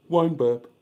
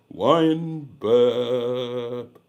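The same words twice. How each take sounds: First: Said in the usual way. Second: Words pushed out on a burp. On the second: Real, not acted.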